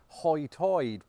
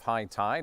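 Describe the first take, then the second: First: It is said in the local island brogue. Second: It is said in a standard American accent.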